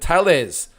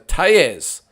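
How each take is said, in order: First: The double L sounds like an L. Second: The double L sounds like a Y. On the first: The speaker calls it wrong. "I've been pronouncing it lot wrong. I've called him Tellez. That's the uh, English coming out of me" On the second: The speaker calls it right. "double L is pronounced like a Y"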